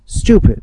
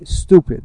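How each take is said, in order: First: The word is said with a British pronunciation. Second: The word is said with an American pronunciation. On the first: "British pronunciation" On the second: "or in America, as they say, stupid"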